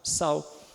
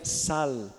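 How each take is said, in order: First: The final L becomes a W-like vowel glide. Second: The final L is pronounced as a clear L. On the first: This is how it is said in Portuguese. "Mas em português a gente fala sal" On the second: This is how it is said in Spain or Peru. "Tem que pronunciar o L"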